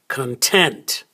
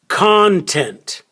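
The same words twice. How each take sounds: First: The stress is on the second syllable. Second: The stress is on the first syllable. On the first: "So the stress is on the second syllable" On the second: "That's where we stress the first syllable"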